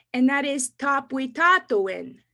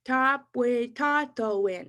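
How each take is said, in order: First: Said in the usual way. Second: Tapuitatoin said slowly and evenly; slow Cree word. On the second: Shown as a demonstration. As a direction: spell out Tapuitatoin slowly for repeating. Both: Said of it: "I'll say them slow".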